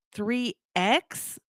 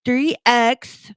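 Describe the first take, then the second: First: THREE X read back softer, rising on X as a question. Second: Firm, louder dictation of each item; caller dictating. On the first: Playing along with the scam caller, questioning "Three X". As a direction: repeat "Three X" slowly as if checking. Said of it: "and I'd go". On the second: Scam caller dictating a code to take down, insistent. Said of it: "So he would say". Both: Retold or imitated.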